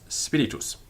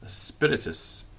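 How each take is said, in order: First: It is said with Latin pronunciation. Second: It is said with English pronunciation.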